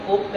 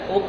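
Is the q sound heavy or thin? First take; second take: thin; thin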